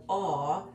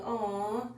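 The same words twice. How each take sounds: First: Said in the usual way. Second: Higher, touched aw; tender aw. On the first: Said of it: "not, not that". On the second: Shown as a demonstration. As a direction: coo it like you're moved. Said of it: "I'm like".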